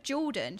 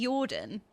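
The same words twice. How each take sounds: First: Said in the usual way. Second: Jordan with a Y sound for the J; Swedish-style J. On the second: Shown as a demonstration. Showing how a Swedish friend says "Jordan", J as Y. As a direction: say "Jordan" as "Yordan". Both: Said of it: "in Swedish you pronounce J's as Y's".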